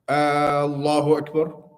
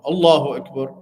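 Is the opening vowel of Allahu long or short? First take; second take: long; short. First: The opening vowel of Allahu is drawn out long. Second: The opening vowel of Allahu is kept short. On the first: It asks whether God is the greatest. The speaker calls it wrong. "they put like a ah in the beginning" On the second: It states that God is the greatest. The speaker calls it right.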